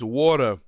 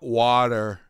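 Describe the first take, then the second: First: It is said with an East Coast accent. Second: It is said without an East Coast accent. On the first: The speaker calls it right. "if you're an East Coaster, you know, it's water" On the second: The speaker calls it wrong. "not water"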